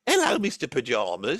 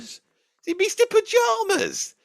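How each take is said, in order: First: Said in the usual way. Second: High, slow, drawn-out disbelief; Mister Pajamas asked very high and slow, mocking the name; incredulous query. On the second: Questioning the odd name.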